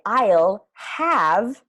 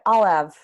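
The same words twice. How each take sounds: First: The H at the start of have is pronounced. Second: The H at the start of have is dropped. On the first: The speaker calls it wrong. "we don't say the H. So we don't say I'll have" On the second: The speaker calls it right. "You say more like I'll have"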